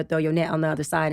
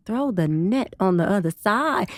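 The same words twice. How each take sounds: First: Said in the usual way. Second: Slow, firm "Throw the net on the other side"; insistent repeat. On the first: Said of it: "Jesus came on the boat and told Peter". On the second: Retold or imitated. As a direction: lean on every word, patiently insisting. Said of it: "And Jesus like".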